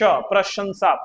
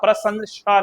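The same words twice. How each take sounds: First: The sh sound comes first, then s. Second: The s sound comes first, then sh. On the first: The speaker calls it right. "पहले नहीं, बाद में" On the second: The speaker calls it wrong. "प्रशंसा नहीं। उल्टा चला जाएगा"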